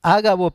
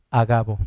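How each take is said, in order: First: "Ágabo" said Á-ga-bo, stress on the opening A. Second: "Agabo" said a-GA-bo, stress on the middle syllable. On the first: Preacher correcting a reader's pronunciation, "Ágabo" stressed on the first A. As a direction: hit the first A of "Ágabo" hard, the rest unstressed. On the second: Preacher reading Scripture to the congregation, "Agabo" stressed on ga. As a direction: land the stress on "ga" of "Agabo", not the first A. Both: Shown as a demonstration. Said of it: "no tiene acento en la A".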